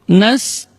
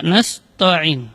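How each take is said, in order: First: "Nasta'in" chanted with a light, thin ta. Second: "nasta'in" wrongly as "nasto'in", spoken; "nasta'in" with a heavy, rounded "to"; thickened ta mistake. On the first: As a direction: keep the ta thin in "Nasta'in", vowels held. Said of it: "tidak boleh ta ditebalkan". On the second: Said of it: "Tidak nasta'in". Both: Shown as a demonstration.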